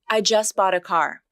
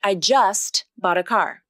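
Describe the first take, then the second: First: The t in just is dropped. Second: The t in just is clearly pronounced.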